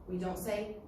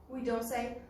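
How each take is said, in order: Both takes have the same delivery.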